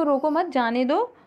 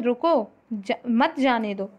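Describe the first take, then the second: First: रोको मत as one group, then जाने दो; pause after मत. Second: रुको on its own, then मत जाने दो together; pause after रुको. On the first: Teacher contrasting two readings for students, pause after मत. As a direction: slowly join रोको to मत, break before जाने दो. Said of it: "इसमें दोनों में अंतर है". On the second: Teacher contrasting two readings for students, pause after रुको. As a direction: break after रुको, keep मत joined to जाने दो. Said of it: "अलग-अलग स्थानों पर एक रुकने के कारण". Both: Shown as a demonstration.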